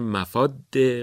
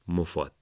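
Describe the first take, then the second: First: The final d sound is held and doubled. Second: The final d sound is short and single. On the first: The speaker calls it wrong. "با تشدید روی دال تلفظ میکنن" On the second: The speaker calls it right. "این واژه اولا تشدید نداره، بعدم میم ضمه داره"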